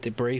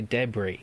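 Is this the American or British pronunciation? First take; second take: American; British. First: It is said with an American pronunciation. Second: It is said with a British pronunciation. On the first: "that's the American way to say it" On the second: "we over here in England we say debris"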